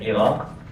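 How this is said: The name is said with Arabic pronunciation. "Iraq is the Arabic pronunciation"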